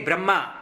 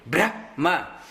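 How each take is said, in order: First: The word ends on a plain ma sound. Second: The word carries an h sound near the end. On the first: The speaker calls it wrong. "Many people say Brahma. ... It is not Brahma" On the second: The speaker calls it right. "It should end with Ha. ... You have to say Brahma"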